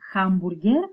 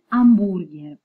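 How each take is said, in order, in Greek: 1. Η λέξη αρχίζει με ηχητικό h. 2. Η λέξη αρχίζει χωρίς ήχο h. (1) "δεν θα πούμε hamburger" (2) "δεν το προφέρουμε ποτέ όταν είναι στην αρχή μιας λέξης"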